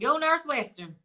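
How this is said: It is said in a Southern accent.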